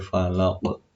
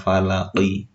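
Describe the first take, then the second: First: The word ends on a stopped, bouncing q. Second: The word ends with a short vowel after q. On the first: The reader stops at the end of the verse. "tapi diwaqafkan berarti menjadi" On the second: The word is read on without stopping. "yang seharusnya falaqi"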